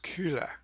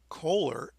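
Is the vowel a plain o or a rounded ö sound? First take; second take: rounded ö; plain o. First: The first vowel is a rounded ö sound. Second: The first vowel is a plain o sound. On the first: The speaker calls it right. "pronounce that umlaut O in the correct way" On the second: The speaker calls it wrong. "Some people say Kohler illumination"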